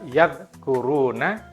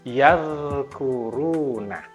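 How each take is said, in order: First: The dh sound is cut off abruptly before k. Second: The dh sound keeps flowing until the k. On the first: The speaker calls it wrong. "Bukan dibaca" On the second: The speaker calls it right. "Zalnya tetap berlepas suaranya sampai kafnya muncul"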